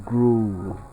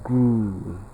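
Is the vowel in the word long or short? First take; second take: long; long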